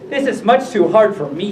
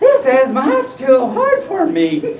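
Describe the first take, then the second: First: It is said in a plain narrator voice. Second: It is said in a put-on Goldilocks voice.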